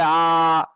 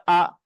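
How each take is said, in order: First: "আ" held long; wrongly stretched vowel. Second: Said in the usual way. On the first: Shown as a demonstration. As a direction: drag out "আ" as a long, sustained vowel. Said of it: "টান হবে না". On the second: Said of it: "উচ্চারণ টান হবে না".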